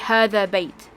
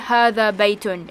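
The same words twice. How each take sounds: First: The last word ends without the 'tun' sound. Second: The last word ends with a 'tun' sound. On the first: This is how people talk casually with friends. "we usually just say هذا بيت. We don't pronounce the last sound" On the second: This is the full formal pronunciation. "We don't really say هذا بيت in real life"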